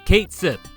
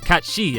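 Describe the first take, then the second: First: It is said as 'Kate Sith'. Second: It is said as 'Kat Shee'. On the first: The speaker calls it wrong. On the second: The speaker calls it right.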